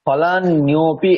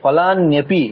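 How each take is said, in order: First: The middle syllables are drawn out and separated. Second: The middle syllables are short and run together. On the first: The speaker calls it wrong. "এই জায়গাটা দীর্ঘ হয়ে যাচ্ছে" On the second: The speaker calls it right. "নেপিটা একসাথে বলতে হবে"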